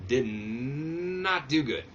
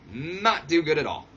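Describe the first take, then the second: First: Slow, stretched did not do good; drawn out dismay. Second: Louder, firm not do good at all; emphatic repeat. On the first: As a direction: drag it out in disbelief. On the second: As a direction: hammer it home. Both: Real, not acted.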